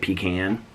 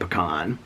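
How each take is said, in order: First: It is said with the Southern pronunciation. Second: It is said with the Indiana pronunciation. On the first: This is how people from the South say it. "from the South, you say pecan" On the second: This is how people from Indiana say it. "In Indianapolis, in Indiana, we say pecan"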